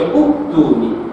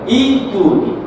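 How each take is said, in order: First: The word begins with a 'u' vowel. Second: The word begins with an 'i' vowel. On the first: The speaker calls it wrong. "Silap ya" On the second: The speaker calls it right. "Ingat ya"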